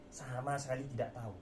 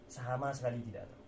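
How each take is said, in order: Both takes have the same delivery.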